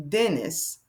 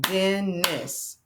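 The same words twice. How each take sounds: First: Said in the usual way. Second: Dennis split as "Den, nis"; stretched Dennis with a gap between syllables; clapped-out syllables. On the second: Shown as a demonstration. Teacher clapping out the name Dennis, syllable by syllable. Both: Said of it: "Let's clap that out".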